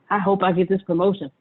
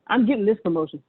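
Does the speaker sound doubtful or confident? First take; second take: doubtful; confident. First: It sounds doubtful and low in energy. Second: It sounds confident and high in energy.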